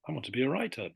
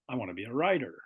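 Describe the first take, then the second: First: A British accent with a clear T sound. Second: An American accent with a D-like T sound.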